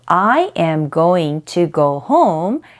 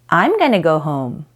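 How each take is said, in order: First: Every word is said fully and separately. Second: The words are contracted and blended together.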